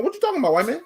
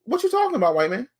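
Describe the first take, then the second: First: High, incredulous sitcom catchphrase, again with a smirk; Arnold Jackson catchphrase. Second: High, incredulous sitcom catchphrase; Arnold Jackson catchphrase. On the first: Repeating the sitcom line at the company man. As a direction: land the catchphrase with full disbelief. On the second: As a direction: throw it back like the sitcom kid. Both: Retold or imitated. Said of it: "I went straight Arnold Jackson".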